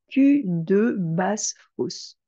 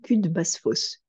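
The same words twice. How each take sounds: First: The vowel of 'de' is clearly pronounced. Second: The vowel of 'de' is dropped entirely.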